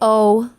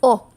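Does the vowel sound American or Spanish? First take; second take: American; Spanish. First: The vowel sounds American, gliding at the end. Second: The vowel sounds Spanish, pure and steady. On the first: The speaker calls it wrong. "do not say o. Okay, that's American" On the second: The speaker calls it right. "It's o"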